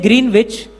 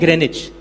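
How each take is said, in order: First: It is said as spelled, with the 'w' sounded. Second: It is said short, with the 'w' silent. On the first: This is how the name is written. "अब उसको लिखते हैं ग्रीनविच" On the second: This is how the English actually say it. "अंग्रेज pronounce करते हैं ग्रेनिच"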